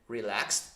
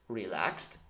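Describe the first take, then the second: No difference in how they are said.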